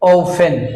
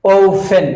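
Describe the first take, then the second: First: The t sound is silent. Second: The t sound is silent.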